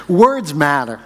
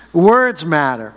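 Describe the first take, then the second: First: Said in the usual way. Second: "Words matter" slowed, each word weighted with a falling close; slow emphatic repeat. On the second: Shown as a demonstration.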